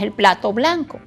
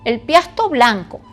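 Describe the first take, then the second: First: The word is pronounced 'plato' with a clear 'pl'. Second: The word is pronounced 'piasto' instead of 'plato'. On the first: The word is said in its standard form. The speaker calls it right. "y es el plato blanco" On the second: A young child is mispronouncing the word. The speaker calls it wrong. "tienden a pronunciar mal las, las palabras"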